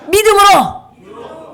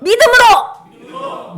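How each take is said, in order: First: Slow, high, loud 믿음으로; rallying shout. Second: Even higher, slow, loud 믿음으로; stronger rallying shout. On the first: Teacher leading children to shout the motto. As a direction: chant 믿음으로 stretched and strong. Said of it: "이렇게 손 이렇게 딱 해보세요". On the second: Teacher repeating the motto with the children, stronger. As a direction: chant 믿음으로 stretched, higher again. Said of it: "다시 한번 꾹 참자". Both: Shown as a demonstration.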